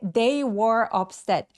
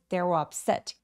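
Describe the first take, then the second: First: Every word is said fully and distinctly. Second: 'They were' is reduced, with stress on 'set'. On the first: The speaker calls it wrong. "너무 또렷하게" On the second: The speaker calls it right. "한 덩어리처럼 they were up"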